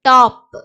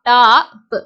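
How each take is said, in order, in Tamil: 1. உயிரொலி குறுகி நறுக்கென்ற 'o' ஒலி. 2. உயிரொலி நீண்டு இழுத்த 'aa' ஒலி. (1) "இங்கிலீஷ்ல வந்து ஓக்கு ஆங்கிற சவுண்ட் வந்து கிடையாது" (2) "இது தமிழ்ல உச்சரிக்கும் போது நம்ம இப்படி உச்சரிப்போம்"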